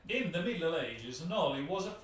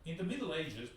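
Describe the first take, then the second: First: Put-on thick Italian accent. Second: Said in the usual way. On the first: Host attempting the intro text in his thickest Italian accent. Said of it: "the accent, the accent". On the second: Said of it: "oh, sorry, the, the accent".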